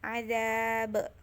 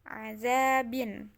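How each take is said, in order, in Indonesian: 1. Kata ini berakhir dengan b mati. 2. Kata ini berakhir dengan b, vokal, dan n.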